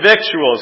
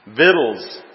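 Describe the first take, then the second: First: The word is said with a 'k' sound. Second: The word is said without a 'k' sound. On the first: The speaker calls it wrong. "I said victuals" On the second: The speaker calls it right. "It is pronounced V-I-D-L-S"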